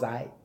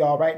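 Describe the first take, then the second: First: It is squeezed into one short syllable. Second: Both syllables are said in full. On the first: The speaker calls it right. "She's coaching me to say I" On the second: The speaker calls it wrong. "She didn't want to hear me say all right ever again"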